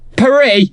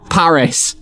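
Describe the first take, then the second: First: It is pronounced the French way. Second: It is pronounced the English way. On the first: This is the local name. "what's your city?" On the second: This is the British name. "We're doing it our way"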